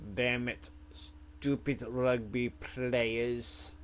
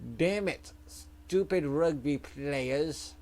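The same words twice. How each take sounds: First: It is mumbled quietly under the breath. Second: It is yelled out loudly.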